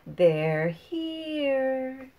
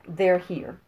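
First: It is said expressively, with clear inflection. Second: It is said flat, with no inflection. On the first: "I'm going to say it the other way" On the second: "I'm going to say it first without inflection"

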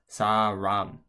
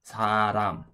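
First: The middle consonant is an English-style r. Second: The middle consonant sounds between r and l. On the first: The speaker calls it wrong. "As an English speaker, you might be looking at this and think that this says sa-ram" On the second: The speaker calls it right. "it's actually a letter that's sort of a mix between the two. I would say this is"

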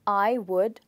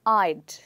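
First: It is said as two separate full words. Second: It is said as one short contracted syllable. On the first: "आई और वुड को join करके" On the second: "join करके बनाएंगे"

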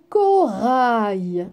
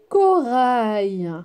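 The two takes are said the same way.

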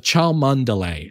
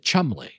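First: The name is sounded out with every spelled syllable. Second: The name is said as two short syllables. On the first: "That's how it's spelled" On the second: "they pronounce it Chumley"

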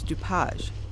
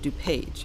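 First: The name is said with a French pronunciation. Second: The name is said with an American pronunciation. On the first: This is how the settler's name was originally said. The speaker calls it right. "the correct and original pronunciation of his name" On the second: This is how the name is said locally today. The speaker calls it wrong. "the Americanized version"

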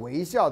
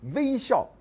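First: It is said the Taiwanese way. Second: It is said the Beijing way. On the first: "我们都讲微笑在台湾" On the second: "你到北京去，他们讲微笑"

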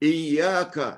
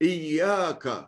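No difference in how they are said.

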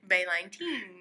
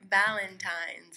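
First: The word is pronounced in a comically distorted way. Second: The word is pronounced in the ordinary way.

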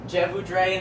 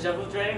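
First: It is said with an anglicized pronunciation. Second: It is said with a native French pronunciation. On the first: The speaker calls it wrong. "people would say je voudrais instead of" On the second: The speaker calls it right. "which is like the correct way of saying it"

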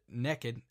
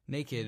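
First: The word has a Southern US regional pronunciation. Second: The word has a standard general American pronunciation.

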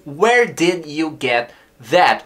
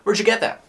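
First: It is said slowly with every word clear. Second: It is said fast with words contracted.

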